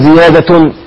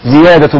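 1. تنتهي الكلمة بصوت نون زائد. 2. لا تنتهي الكلمة بصوت نون زائد. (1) "لا تقل زيادة" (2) "زيادة بلا تنوين"

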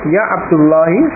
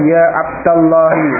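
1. Vokal setelah 'abd' adalah 'u'. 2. Vokal setelah 'abd' adalah 'a'. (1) "abdu ya, dengan dhammah, ya Abdullahi, yakunu khata'an" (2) "wajib nasab, sehingga harus dibaca ya Abdullahi"

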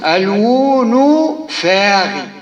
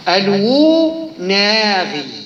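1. يُنطق الاسم بكل مقاطعه. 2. يُنطق الاسم مع حذف مقطع.

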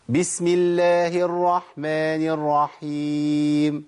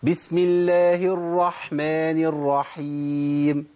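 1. يكاد صوت الـ h المتنفس لا يُسمع. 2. صوت الـ h المتنفس مسموع بوضوح. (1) "اسمعوا الخطأ بقى... انا ما طلعتش الحاء" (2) "سمع صوت الحاء، ودي اسمها بحة الحاء"

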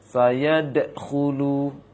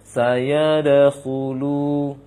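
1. Bunyi d yang memantul terputus dari bunyi berikutnya. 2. Bunyi d yang memantul mengalir tersambung ke bunyi berikutnya. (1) "maka keliru"

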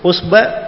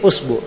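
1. Vokal setelah b adalah a. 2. Vokal setelah b adalah u.

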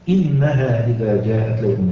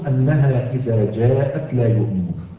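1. تبدأ الكلمة الأولى بصوت 'i'. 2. تبدأ الكلمة الأولى بصوت 'a'.

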